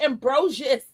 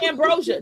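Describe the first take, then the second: First: The name ends with an s sound. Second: The name ends in a vowel, without an s. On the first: The speaker calls it right. "I think it's ambrosius" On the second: The speaker calls it wrong. "It's not ambrosia"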